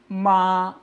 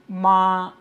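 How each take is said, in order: First: The pitch stays high and level throughout. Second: The same.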